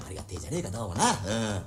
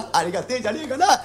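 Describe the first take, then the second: First: Quiet musing. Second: Giggling happily, higher; laughing with delight. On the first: Acted. Bachelor muses alone, quietly. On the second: Real, not acted. Bachelor delighting over his coming bride, laughing happily. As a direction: chuckle through it, thrilled. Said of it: "これ嬉しいね".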